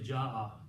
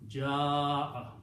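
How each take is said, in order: First: The vowel before the hamza is short. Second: The vowel before the hamza is lengthened. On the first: The speaker calls it wrong. "you cannot say ja'a" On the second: The speaker calls it right. "you have to pronounce this with a long mud"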